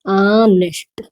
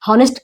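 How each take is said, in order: First: The word begins with a vowel sound. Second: The word begins with an h sound. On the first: The speaker calls it right. "ऑनेस्ट है" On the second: The speaker calls it wrong. "हॉनेस्ट क्या पूरा गलत है"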